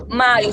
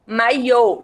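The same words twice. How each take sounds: First: Maio with the weight on MAI, final O light; stress on first syllable. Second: Maiô with a strong, held final Ô; Maiô as mai-Ô, ending stressed; stress on last syllable. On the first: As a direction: say maio stressed at the start, ending unstressed. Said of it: "maio sem acento". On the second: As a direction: put the weight on the end of Maiô. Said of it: "é um acento também na última". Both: Shown as a demonstration.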